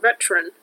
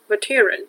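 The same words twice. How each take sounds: First: Said in the usual way. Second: "veteran" said the German way; German-style pronunciation. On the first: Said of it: "instead of veteran". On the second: Shown as a demonstration. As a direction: say "veteran" with German sounds, not English ones. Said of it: "pronunciating it in the German way".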